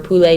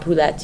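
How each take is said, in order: First: The final T sound is silent. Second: The final T sound is pronounced. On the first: The speaker calls it right. "you don't pronounce the T at the end" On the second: The speaker calls it wrong. "notice that it's not poulette"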